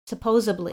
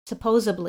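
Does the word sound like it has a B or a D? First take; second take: B; B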